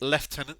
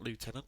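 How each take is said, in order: First: The word is said with a British pronunciation. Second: The word is said with an American pronunciation. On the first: The speaker calls it right. "the correct way of pronunciation" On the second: The speaker calls it wrong. "I'm not saying Lieutenant because I'm not American"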